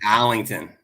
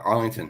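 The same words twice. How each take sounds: First: It is said in a local Boston accent. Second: It is said in a standard accent.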